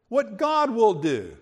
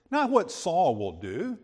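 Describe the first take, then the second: First: God said louder and falling; stress on God. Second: Said in the usual way. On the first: Shown as a demonstration. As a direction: lean hard on the word God, set against Saul.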